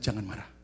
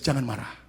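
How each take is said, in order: First: It is said at normal loudness. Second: It is said loudly.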